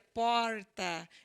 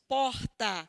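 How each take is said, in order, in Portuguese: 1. O R é puxado e alongado. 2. O R é falado sem puxar. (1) "pronuncia porta, ele puxa o R" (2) "Nós aqui pronunciamos porta"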